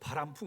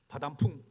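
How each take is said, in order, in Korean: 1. 두 번째 음절은 r 소리로 발음해요. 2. 두 번째 음절은 d 소리로 발음해요. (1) "하길 바라야 되는" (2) "자기는 발음을 엉망으로 하면서"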